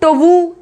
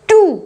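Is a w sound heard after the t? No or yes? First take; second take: yes; no. First: A w sound is heard after the t. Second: No w sound is heard after the t. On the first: The speaker calls it wrong. "टवू ऐसे करके नहीं बोला जा रहा है" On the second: The speaker calls it right. "इसको क्या बोला जा रहा है? टू"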